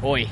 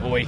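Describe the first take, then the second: First: Australian oi. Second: "Oi." with Australian grunt; chesty Aussie "Oi."; gruntier Aussie oi. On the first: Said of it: "put a bit of an Australian accent". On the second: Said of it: "you gotta put a bit of grunt in". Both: Shown as a demonstration.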